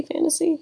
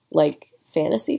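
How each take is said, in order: First: High pitch. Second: Said in the usual way. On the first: Shown as a demonstration. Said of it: "like, fantasy, fantasy". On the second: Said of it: "fantasy, fantasy".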